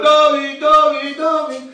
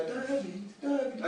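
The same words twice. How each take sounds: First: Loud, higher shouted name; children shouting. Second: Softly calling the name, much softer; soft hushed call of the name; very quiet calling. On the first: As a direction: yell the name across the room. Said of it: "A dzieci krzyczą". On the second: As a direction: call him as quietly as you can. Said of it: "tak cichutko, najciszej jak potrafiła". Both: Retold or imitated.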